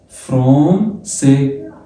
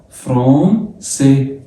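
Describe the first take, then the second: The two takes are said the same way.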